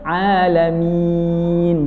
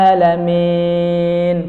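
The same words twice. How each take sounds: First: The jaw drops and the 'i' sounds clear. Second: The jaw stays up and the 'i' is unclear. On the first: The speaker calls it right. "Kalau turun, jelas i" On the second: The speaker calls it wrong. "nggak diturunkan rahangnya"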